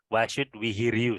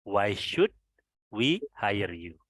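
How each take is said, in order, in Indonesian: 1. Kata 'hire' diucapkan seperti 'here'. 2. Kata 'hire' diucapkan seperti 'higher'. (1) "tapi membacanya here. ... Salah ya" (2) "Hire ini dibaca hire"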